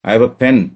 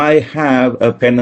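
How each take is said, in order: First: The word 'have' is weakened and reduced. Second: The word 'have' is said in full. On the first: The speaker calls it right. "എന്നേ പറയുള്ളൂ" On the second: The speaker calls it wrong. "എന്ന് നമ്മൾ ഒരിക്കലും പറയില്ല"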